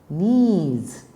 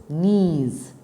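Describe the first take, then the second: No difference in how they are said.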